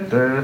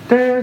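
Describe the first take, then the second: First: The syllable is said on a low pitch. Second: The syllable is said on a high pitch. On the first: It signals the bottom row. "a low tone for the bottom" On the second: It signals the top row. "a high tone for the top"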